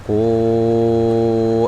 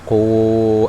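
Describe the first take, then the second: First: The vowel is held for five counts. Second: The vowel is held for four counts. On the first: "kalau yang lima ya udah tinggal lima"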